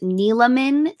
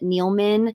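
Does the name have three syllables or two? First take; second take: three; two. First: The name is said with three syllables. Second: The name is said with two syllables. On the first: The speaker calls it right. "it is pronounced Neeleman, three syllables. The E is not silent" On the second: The speaker calls it wrong. "but it is incorrect"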